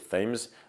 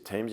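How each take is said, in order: First: The word starts with a th sound. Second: The word starts with a plain t sound. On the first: This is not how people in England say it. The speaker calls it wrong. "you don't say Thames" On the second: This is how people in England say it. The speaker calls it right. "in England you say Thames"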